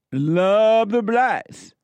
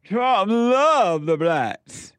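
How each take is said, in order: First: High, very slow, louder sneering drawl; mock Trump. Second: High, very slow sneering sing-song; mocking impression. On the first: Host mocking Trump's words, high slow sneer. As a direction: stretch "Love" out high and mocking. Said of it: "Here's Trump". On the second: Mocking a PBS soundbite about Trump, high slow sneer. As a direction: drag "love" out high in ridicule. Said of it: "Here's another soundbite from P B S".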